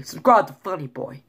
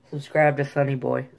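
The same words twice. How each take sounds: First: Light attempt at North Jersey speech; lightly imitated North Jersey accent. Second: Light attempt at South Jersey speech; lightly imitated South Jersey accent. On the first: Vlogger contrasting Jersey accents on his plug, North Jersey. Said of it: "North Jersey". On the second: Vlogger contrasting Jersey accents on his plug, South Jersey. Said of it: "South Jersey". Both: Shown as a demonstration.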